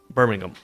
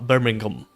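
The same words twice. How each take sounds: First: Birmingham is said with a British accent. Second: The same.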